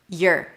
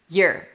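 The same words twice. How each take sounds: The two takes are said the same way.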